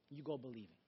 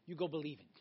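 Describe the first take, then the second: First: Softer, lower repeat. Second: Said in the usual way. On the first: Real, not acted. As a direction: echo the line much softer and lower. Repeated line, second said softer.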